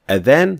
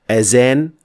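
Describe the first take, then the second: First: The middle consonant is a soft th sound. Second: The middle consonant is a z sound. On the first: It means the call to prayer. The speaker calls it right. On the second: It means to decorate. The speaker calls it wrong.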